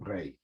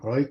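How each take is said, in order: First: It is said in the Litvak pronunciation. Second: It is said in a non-Litvak pronunciation. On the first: "They say Shane and Breit" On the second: "The Russians, Litvakis, don't say Schoin and Breut"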